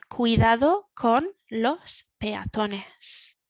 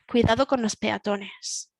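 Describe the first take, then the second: First: The phrase is said slowly. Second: The phrase is said at normal speed. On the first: "the first one a little bit slower" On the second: "the second one normal speaking speed"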